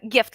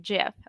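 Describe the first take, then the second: First: It begins with a hard G sound. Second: It begins with a J sound. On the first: "like great" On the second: "like a J sound"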